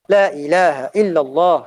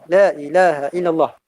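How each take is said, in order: The two takes are said the same way.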